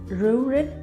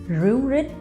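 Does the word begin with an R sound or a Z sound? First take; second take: R sound; R sound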